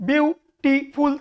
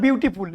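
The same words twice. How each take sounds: First: "বিউটিফুল" split slowly as বিউ-টি-ফুল; "বিউটিফুল" with a small gap after বিউ and টি; syllable by syllable. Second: Said in the usual way. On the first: Shown as a demonstration. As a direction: break "বিউটিফুল" into three separate syllables. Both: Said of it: "তিনটে syllable রয়েছে".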